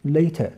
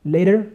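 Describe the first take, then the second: First: "Later" with a clear t and no final r, falling; UK-style "Later"; British later. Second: "Later" with a tapped t and a final r, rising; US-style "Later"; American later. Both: Shown as a demonstration.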